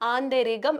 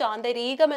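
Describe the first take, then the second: First: The vowel in 'ri' is short. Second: The vowel in 'ri' is long. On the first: The speaker calls it right. "ആന്തരികം എന്ന് നമ്മൾ ആ ഒരു വാക്ക് ഉച്ചരിച്ചാൽ മതിയാകും" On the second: The speaker calls it wrong. "ദീർഘിപ്പിച്ചു ആന്തരീകം എന്ന് പറഞ്ഞു കഴിഞ്ഞാൽ ... അത് തെറ്റാവും"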